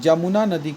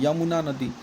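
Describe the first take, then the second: First: The name begins with a j sound. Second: The name begins with a y sound.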